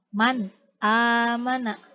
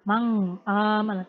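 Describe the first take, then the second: First: The n is pronounced cleanly and distinctly. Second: The n blurs into a nasal ng sound. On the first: The speaker calls it right. "cara membaca dari idhar ini yaitu jelas" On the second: The speaker calls it wrong. "tidak dileburkan ... Tidak seperti itu ya"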